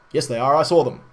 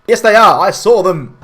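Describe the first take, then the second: First: Said in the usual way. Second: Higher, much louder yell; mock shout. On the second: Gandalf yelling his warning at the villagers, shouting. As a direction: bellow it like an exasperated wizard.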